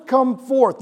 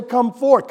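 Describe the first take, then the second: First: Jesus calling Lazarus forth; called out. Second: Said in the usual way. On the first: Retold or imitated. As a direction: come forth called after the name. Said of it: "he yells out". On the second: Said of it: "why didn't he just say".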